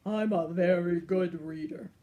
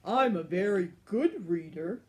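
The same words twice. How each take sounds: First: Proud, louder lion boast; imperious lion. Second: Louder, proud dragon boast; boastful dragon. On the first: The lion boasts to the giant, grand and loud. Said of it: "roared the lion imperiously". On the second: The dragon boasts to the giant, louder and proud. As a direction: boast like a grand old dragon. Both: Acted.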